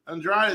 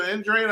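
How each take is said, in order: First: Andrade said as an-DRAY, ending in "ay"; alternative pronunciation. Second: Andrade said as an-DRAH-dee, ending in "dee"; alternative pronunciation. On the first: Fan unsure of the boxer's name, Andrade as an-DRAY. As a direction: say Andrade in two syllables, an-DRAY. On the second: Fan unsure of the boxer's name, Andrade as an-DRAH-dee. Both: Shown as a demonstration. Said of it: "I forgot how you pronounce it".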